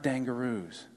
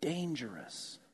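First: The word ends with a long 'roos' sound. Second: The word ends with a short 'rus' sound. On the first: The speaker calls it wrong. "Not dangaroos" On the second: The speaker calls it right. "Around here, we pronounce that word dangerous"

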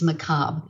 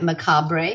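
First: The word is pronounced differently from its spelling. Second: The word is pronounced as its spelling suggests. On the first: The speaker calls it right. "But it's not. It's macabre" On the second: The speaker calls it wrong. "It looks like macabre"

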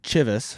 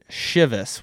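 First: The word starts with a 'ch' sound. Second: The word starts without a 'ch' sound. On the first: "I see CH, I'm thinking Cha" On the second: "a lot of people online seem to pronounce it Chivas"

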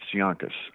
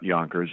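First: It is said in a New York accent. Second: It is said in a neutral accent. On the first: "where I come from, it's Yonkus" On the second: "it's not Yonkers"

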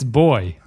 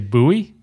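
First: The word sounds exactly like 'boy'. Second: The word does not sound like 'boy'. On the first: The speaker calls it right. "It's boy. You say boy" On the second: The speaker calls it wrong. "I cannot stand people who say buoy"

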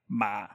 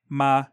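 First: The pitch is very low and grumbly. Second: The pitch stays low and level. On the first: "just a low, like grumble tone" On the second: "like a low flat tone"

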